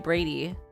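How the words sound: It is said with an American accent.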